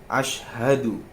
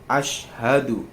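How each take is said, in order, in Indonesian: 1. Konsonan sebelum 'hadu' adalah bunyi sy. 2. Konsonan sebelum 'hadu' adalah bunyi sy.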